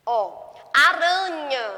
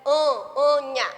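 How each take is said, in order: First: Aranha drawn out slowly, stressing anha; teacher spelling out aranha for children; syllable emphasis. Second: Anha said alone, slow and firm; teacher isolating the rhyming sound anha; isolating the rhyme. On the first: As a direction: stretch aranha so the ending anha stands out. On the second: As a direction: pull out the ending anha on its own. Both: Shown as a demonstration.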